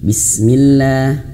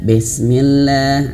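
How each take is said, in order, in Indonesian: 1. Vokal pertama adalah i yang jelas. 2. Vokal pertama terdengar seperti e. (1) "harus jelas bis" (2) "bukan bes"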